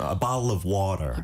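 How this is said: It is said in an American accent, t flapped. "미국식으로"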